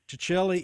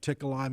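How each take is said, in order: First: The surname has its original Italian pronunciation. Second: The surname has a local anglicized pronunciation. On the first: This is the family's original pronunciation. "Ticelli is the correct pronunciation" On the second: This is how people locally came to say it. "they started saying Ticolai"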